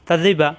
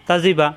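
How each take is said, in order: Both takes have the same delivery.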